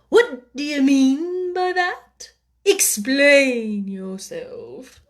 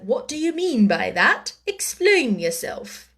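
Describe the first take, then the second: First: It is said melodically, almost like a song. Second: It is said plainly, without melodic flow.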